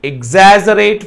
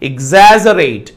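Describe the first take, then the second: First: The stress is on the second syllable. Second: The stress is on the second syllable.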